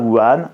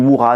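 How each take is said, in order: First: The name is said with a French pronunciation. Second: The name is said with a Chinese-like pronunciation. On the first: The speaker adapts the name to French. "je prononce à la française" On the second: This is how the name is properly said. "ça se dit Wuhan"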